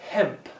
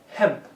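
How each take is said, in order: Both takes have the same delivery.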